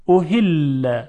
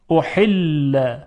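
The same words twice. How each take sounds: First: احل with a soft, ordinary ه in place of ح. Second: احل drawn out, ح squeezed in the throat; constricted Arabic ح. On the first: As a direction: let a light breathed h flow in احل. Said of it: "اول با هی دو چشم". (تلفظ احل با هٔ دوچشم نرم) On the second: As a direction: force air through a tight ح in احل. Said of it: "حالا با هی جیمی". (تلفظ احل با حای جیمی گرفته) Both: Shown as a demonstration.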